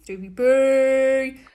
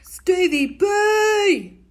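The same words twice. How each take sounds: First: Long drawn-out call at normal pitch; steady drawn-out call, not pitched up. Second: Long drawn-out call, high and loud; Australian-sounding drawn-out shout. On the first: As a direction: stretch the name as you call for him. Calling out again to Stevie. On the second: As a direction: call across the room, stretching the name out. Calling out to Stevie. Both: Real, not acted.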